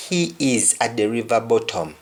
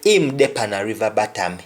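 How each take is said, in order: First: Said in the usual way. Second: "He dey pan a river bottom" in a Jamaican Patois lilt, "bottom" as "batam"; matter-of-fact Patois statement. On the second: Shown as a demonstration. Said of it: "somebody will say".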